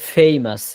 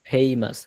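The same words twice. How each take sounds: First: The first sound uses the lower lip and teeth. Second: The first sound is made with both lips. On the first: The speaker calls it right. "উচ্চারণ হবে ফেইমাস। ... নিচের ঠোঁটের এখান থেকে" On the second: The speaker calls it wrong. "Not ফেইমাস।"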